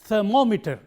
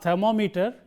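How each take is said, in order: First: The stress is on the second syllable. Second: The stress is not on the second syllable. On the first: The speaker calls it right. "the syllable immediately preceding meter is this, and therefore we pronounce it" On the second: The speaker calls it wrong.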